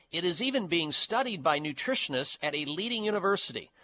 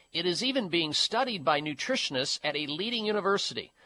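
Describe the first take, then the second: The two takes are said the same way.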